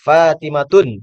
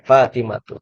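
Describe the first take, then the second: First: The name ends with an added n sound. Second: The name ends on a plain vowel. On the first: The speaker calls it wrong. "Tidak boleh Fatimatun" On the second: The speaker calls it right. "Fatimatu itu tidak boleh dia itu di ditanwinkan"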